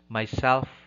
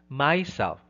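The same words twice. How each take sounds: First: The stress is on the second syllable. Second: The stress is on the first syllable. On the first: The speaker calls it right. "It should be myself" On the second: The speaker calls it wrong. "It's not myself or himself. No, that's wrong"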